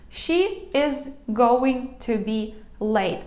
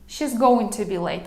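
First: Every word is said separately with many pauses. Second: She is is contracted but going to stays full. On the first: It sounds rough. "я прям по складах, Багато дуже пауз, нібито воно таке грубувате" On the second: It sounds softer. "Окей, це вже м'якше"

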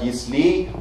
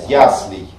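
First: The stress is on the last syllable. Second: The stress is on the first syllable. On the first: The speaker calls it wrong. "многие говорят «яслей». Оба варианта неправильные" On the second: The speaker calls it right. "Правильный вариант – это вариант с окончанием «ей», но с ударением на первый слог"

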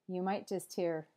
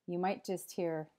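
The two takes are said the same way.

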